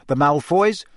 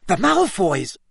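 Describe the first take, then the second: First: Said in the usual way. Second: High, startled exclamation; higher-pitched cry of recognition; sudden loud outburst. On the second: A narrator's reading. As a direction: blurt it out in sudden alarm. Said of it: "so loudly that his voice echoed".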